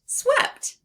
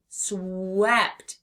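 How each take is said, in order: First: Swept sung out high and loud; excited finish. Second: Said in the usual way. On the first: Shown as a demonstration. Teacher celebrating the blended word with the class. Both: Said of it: "Let's sound out swept together".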